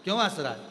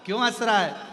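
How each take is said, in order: First: Said in the usual way. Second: Louder, higher worried mother's call. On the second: Acted. Mother calling her laughing baby, puzzled and loud.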